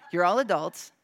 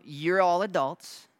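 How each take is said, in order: First: Said through a laugh, a bit louder. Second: Said in the usual way. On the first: Shown as a demonstration. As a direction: repeat it chuckling at your own joke. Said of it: "except you".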